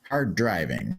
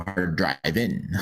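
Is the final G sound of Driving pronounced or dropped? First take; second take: pronounced; dropped. First: The final G sound of Driving is pronounced. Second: The final G sound of Driving is dropped. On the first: The speaker calls it wrong. "Did you pronounce the the non-existent G?" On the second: The speaker calls it right. "that's better"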